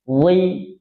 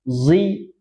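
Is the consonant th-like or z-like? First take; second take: th-like; z-like. First: The consonant is a soft th-like sound. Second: The consonant sounds like a buzzing z. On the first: The speaker calls it right. "ujung lisan tempelkan ke gigi seri" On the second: The speaker calls it wrong. "Kalau ditarik ke dalam dia jadi ada bunyi z, zi, zi, salah"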